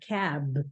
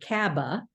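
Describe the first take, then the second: First: The word ends cleanly on the b sound. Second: An extra uh vowel follows the final b. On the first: The speaker calls it right. "I can cut the word cab off really um, pretty easily at the end" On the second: The speaker calls it wrong. "I'm never tempted to say kaba"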